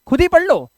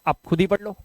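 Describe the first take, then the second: First: Higher and louder, pushing students to read; emphatic urging. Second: Said in the usual way. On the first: Real, not acted. Teacher urging students to read on their own, loud and emphatic. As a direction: insist they read it themselves, loud and high.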